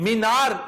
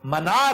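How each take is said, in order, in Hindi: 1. पहला स्वर लंबी ee ध्वनि है। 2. पहला स्वर छोटी a ध्वनि है। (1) "ये जो ये है ना गैर जरूरी है, ये गलत उलाम है" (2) "लफ्ज मनार है"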